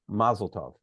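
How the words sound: It is said with the Ashkenazi pronunciation.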